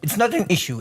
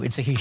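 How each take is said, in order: First: Said in the usual way. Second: "issue" said as "hishu"; joking H-sound. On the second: Shown as a demonstration. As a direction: add a playful H before "issue". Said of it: "you are right to pronounce it well".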